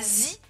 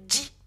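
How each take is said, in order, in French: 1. La syllabe commence par un z simple. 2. La syllabe commence par un son j. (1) "ça fait pas zi" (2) "mais ça fait ji, avec un D prononcé"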